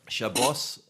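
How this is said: It is said in Ashkenazi Hebrew pronunciation.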